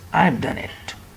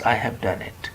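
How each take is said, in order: First: I have is shortened into one syllable. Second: I have is said as two full words. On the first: The speaker calls it right. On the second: The speaker calls it wrong. "not I have done it"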